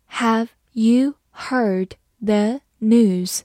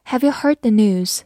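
First: Very slow, each word spaced; slow reading. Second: Said in the usual way. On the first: Shown as a demonstration. Teacher slowly reading the question to the class. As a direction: read it slowly for learners. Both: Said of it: "好，慢读一遍".

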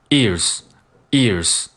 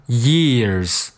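First: EARS straight from the "ee", no glide; ears without y. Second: YEARS drawn out from a "yeh" glide. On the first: Teacher drilling ears for students, slow glideless onset. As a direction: push out "ears" slowly without any y. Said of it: "不需要耶这个音". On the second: Teacher drilling years for students, slow clear y-glide. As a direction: slowly say "years", keeping the y in front. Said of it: "不要忘了前面这个耶". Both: Shown as a demonstration.

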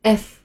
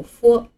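First: "F" read as English ef; 英文读法的F. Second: "F" read as pinyin fo; 按拼音读F. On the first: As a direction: say "F" as the English letter name ef. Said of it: "在英文里这个字母读作F". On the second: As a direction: say "F" the Chinese pinyin way, fo. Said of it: "汉语拼音里的字母F". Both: Shown as a demonstration.

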